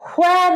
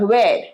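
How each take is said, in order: First: The word begins with an h sound. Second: The word begins with a w sound. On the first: The speaker calls it wrong. "where নয়, হ নয়" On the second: The speaker calls it right.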